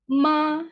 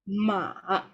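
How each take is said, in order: First: The pitch stays high and level. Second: The pitch dips down then rises. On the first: "the first tone will be high and flat" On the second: "you go down and then you go up"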